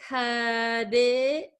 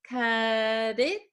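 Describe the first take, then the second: Both takes have the same delivery.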